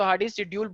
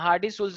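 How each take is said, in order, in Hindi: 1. दूसरा नाम 'schedule' जैसा सुनाई देता है। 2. दूसरा नाम 'sulz' जैसा सुनाई देता है। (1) "वैसे तो हार्डी शेड्यूल बोला जाता है" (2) "वो एक्चुअली में उसकी वो कुछ साइलेंट रहता है"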